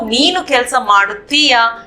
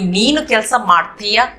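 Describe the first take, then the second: First: The verb is said with all its syllables. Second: The verb is said with a syllable dropped. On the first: This is the written, bookish form. "ये किताब वर्षन में बोलते हैं।" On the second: This is the everyday spoken form. "इसको spoken वर्षन में बोलते हैं।"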